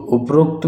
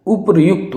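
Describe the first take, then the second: First: उपरोक्त with long "o"; common alternative form. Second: उपर्युक्त ending "yukt"; correct "yukt" form. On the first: Teacher shows less correct उपरोक्त, long "o". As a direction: say उपरोक्त as "up-rokt". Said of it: "सही एक condition में". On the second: Teacher gives the correct उपर्युक्त, with "ryu". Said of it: "उपर्युक्त होता है". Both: Shown as a demonstration.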